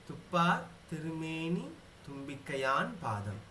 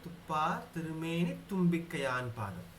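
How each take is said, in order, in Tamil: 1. ஒவ்வொரு சொல்லும் தனியாகச் சொல்லப்படுகிறது, இணைக்காமல். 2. சொற்கள் இணைப்பொலியுடன் சேர்ந்து சொல்லப்படுகின்றன. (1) "தனித்தனியா பிரிச்சு சொல்லச்சே" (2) "சேர்த்து சொல்லும்போது"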